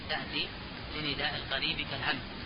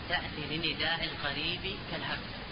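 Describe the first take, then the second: The two takes are said the same way.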